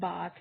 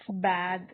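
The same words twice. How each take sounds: First: It ends in a voiceless sound, like 'bath'. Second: It ends in a voiced sound, like 'bathe'. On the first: The speaker calls it wrong. "not bath" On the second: The speaker calls it right. "keep in your mind that how I am pronouncing it, it's bath"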